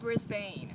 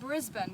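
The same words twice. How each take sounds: First: It is pronounced with an American accent. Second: It is pronounced with an Australian accent. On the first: The speaker calls it wrong. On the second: The speaker calls it right.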